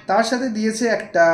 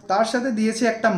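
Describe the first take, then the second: No difference in how they are said.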